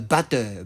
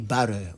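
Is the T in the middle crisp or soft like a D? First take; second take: crisp; soft D. First: It is said with a crisp British T. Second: The middle T sounds like a soft D.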